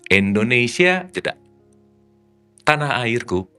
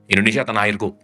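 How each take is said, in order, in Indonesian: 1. Ada jeda setelah kata pertama. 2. Kata-katanya mengalir tanpa jeda. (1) "Indonesia jeda. Tanah airku baru ada maknanya" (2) "nggak ada maknanya"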